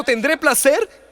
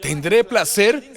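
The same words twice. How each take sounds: First: Placer high, loud and slow rising; emphatic savouring. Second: Placer drawn out slowly and higher; savoured question. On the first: Preacher climaxing on Sara's word placer, high and loud. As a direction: lean hard on placer, slowly. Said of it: "Ella dijo". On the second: Preacher stressing Sara's word placer, slow and rising. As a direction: stretch placer with a rising tune. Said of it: "Mi Señor es viejo". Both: Shown as a demonstration.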